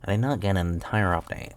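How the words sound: It is said with the nose plugged.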